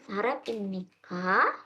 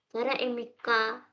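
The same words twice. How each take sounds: First: The voice rises at the end like a question. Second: The voice stays flat at the end.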